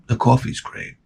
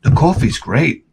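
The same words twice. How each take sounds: First: Hushed whisper to yourself. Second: Said in the usual way. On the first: Shown as a demonstration. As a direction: whisper "The coffee's great." with no voice. Same line repeated, breathless.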